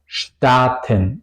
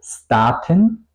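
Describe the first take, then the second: First: It begins with a sh sound before t. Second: It begins with a plain s sound before t. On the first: The speaker calls it right. "se pronuncia como S C H T, como Staaten" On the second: The speaker calls it wrong. "No digo Staaten"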